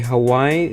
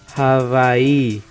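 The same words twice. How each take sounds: First: The middle consonant sounds like a W. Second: The middle consonant sounds like a V.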